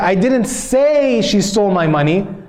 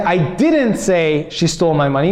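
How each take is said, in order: First: The word say carries the stress. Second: The word didn't carries the stress. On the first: It was implied but not said. "maybe I implied it, but I didn't say it" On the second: The speaker denies saying it. "meaning I didn't say it"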